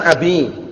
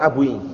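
First: The word ends with a plain 'i' vowel. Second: The word ends with a 'ui' vowel sound. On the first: The speaker calls it right. "Kalau yang benar kan abi" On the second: The speaker calls it wrong. "bukan berarti lughah, tapi keliru. Lahan namanya"

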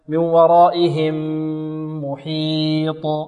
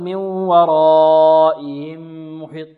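First: The h sound is clearly heard. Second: The h sound is weak and barely heard. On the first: The speaker calls it right. "نوضح الهاء" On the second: The speaker calls it wrong. "لا نقول"

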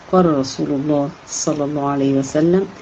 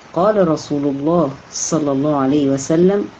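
Both takes have the same delivery.

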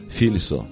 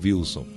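First: The name begins with an F sound. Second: The name begins with a W sound. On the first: The speaker calls it wrong. "Ela fala Filson" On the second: The speaker calls it right. "A minha mãe não sabe falar Wilson"

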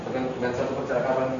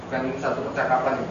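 No difference in how they are said.

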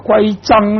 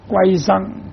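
First: The phrase is said fully with heavy stress. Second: The phrase is said lightly and run together. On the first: "就變成重音一點" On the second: "比較順口一點"

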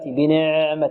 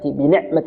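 First: The ayn is drawn out like a long vowel. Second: The ayn is cut short with tight tension. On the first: "البعض يعني يأتي بها مثل الحرف المد" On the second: "ولا نقول بنعمة بنعمة نعطيها شدة"

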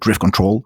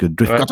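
First: The second word is said as control. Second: The second word is said as cattle. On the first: This is how English speakers say it. "en anglais, les gens ont plutôt l'air de dire" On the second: This is a casual slurred way of saying it. "ça glisse sur le cattle"

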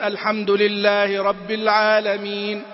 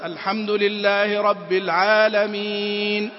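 First: The final long vowel is held briefly. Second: The final long vowel is held at medium length.

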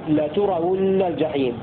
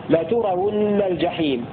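Both takes have the same delivery.

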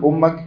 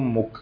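First: The vowel after the doubled m is a. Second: The vowel after the doubled m is u. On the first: It is the object of an implied verb. "أو بالفتح" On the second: It is the subject of the sentence. "تصلح بالضم"

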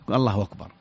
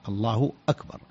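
First: The glottal stop before akbar is softened, gliding in. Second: A full glottal stop is heard before akbar. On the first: "الضمة مع تسهيل الهمزة أكبر، والهمزة تسهل في لغة العرب" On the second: "وأكبر الهمزة مقطوعة، همزة قطع، همزة قطع"

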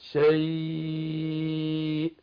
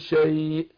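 First: The vowel is held for four counts. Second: The vowel is held for two counts. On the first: "وممكن اقف عليها باربعة" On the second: "ممكن اقف عليها بحركتين"

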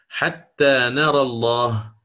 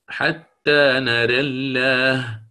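First: Open vowel after r, with a heavy, dark l. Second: Vowel leans toward e, with a light, thin l. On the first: "الفتح، والفتح لا يكون إلا مع التغليظ" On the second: "بالإمالة مع الترقيق"

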